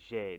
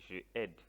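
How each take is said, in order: First: Je is elided into the verb. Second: Je is a full separate syllable. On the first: The speaker calls it right. "You say j'aide" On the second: The speaker calls it wrong. "You don't say je aide"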